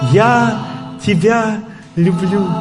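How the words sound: It is said with strong emotion. The feeling is expressed as raw emotion. "Звук эмоций"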